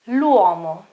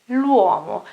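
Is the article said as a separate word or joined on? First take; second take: joined; joined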